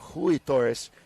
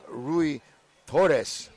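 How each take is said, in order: First: The first name begins with a breathy H sound. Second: The first name begins with an English R sound.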